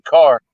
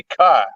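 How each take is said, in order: First: Said in the usual way. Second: Boston "car" with the r dropped, cahh; Boston accent. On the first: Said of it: "instead of saying". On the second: Shown as a demonstration. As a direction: say "car" like a Bostonian, long open ah, no r. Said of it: "they'll say".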